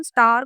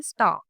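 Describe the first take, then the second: First: Indian English. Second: स्टार in British English, final r silent, long aa; British English स्टार, no r at the end. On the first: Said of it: "Indian English में हम स्टार को स्टार ही बोलते हैं". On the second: Teacher showing British English star without the r. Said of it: "British English में हम क्या बोलते हैं?". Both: Shown as a demonstration.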